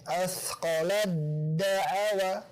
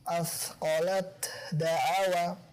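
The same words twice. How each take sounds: First: The t merges into the following d sound. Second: The t is pronounced clearly before the d. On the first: The speaker calls it right. "Hukumnya idgham" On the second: The speaker calls it wrong. "bukan diizharkan seperti ini"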